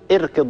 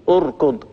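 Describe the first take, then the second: First: The word begins with a short 'i' vowel. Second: The word begins with a short 'u' vowel. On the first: The speaker calls it wrong. "لماذا لم أقول اركض مثلا وكسرت هذه الهمزة؟" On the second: The speaker calls it right. "لاحظوا أني أنطق قبل الراء همزة مضمومة"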